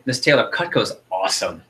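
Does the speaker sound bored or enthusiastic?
enthusiastic. It is said with lively, excited enthusiasm. The speaker truly believes it. The speaker calls it right. "people don't buy Cutco, they buy your enthusiasm and belief"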